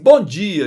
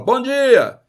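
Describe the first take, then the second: First: It sounds casual and spontaneous. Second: It sounds insistent and demanding.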